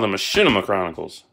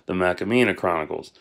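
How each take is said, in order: First: The title word is said as 'Machinima'. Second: The title word is said as 'Macamina'. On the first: The speaker calls it right. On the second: The speaker calls it wrong.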